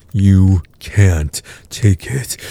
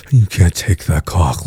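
First: Slow, drawn-out taunt. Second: Said in the usual way. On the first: Acted. Taunting partner that she can't take it, slow. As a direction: stretch each word out, mocking.

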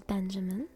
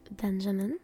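No difference in how they are said.

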